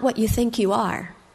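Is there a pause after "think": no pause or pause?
no pause. It runs on with no pause after think. You are not whatever you believe yourself to be. "you are not what you think you are"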